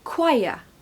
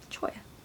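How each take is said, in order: First: The word starts with a 'kw' sound. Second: The word starts with a 'ch' sound. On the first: The speaker calls it right. "First syllable is quai" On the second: The speaker calls it wrong. "If it was the same as the spelling, it would be choir or choya"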